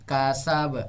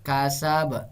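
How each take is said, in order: The two takes are said the same way.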